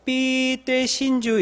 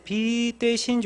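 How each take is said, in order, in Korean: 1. 첫 단어는 된소리 pp로 시작합니다. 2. 첫 단어는 예사소리 b로 시작합니다. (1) "우리는 쌍비읍으로 발음을 해요" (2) "우리 절대 빛 대신 주 이렇게 안 하고"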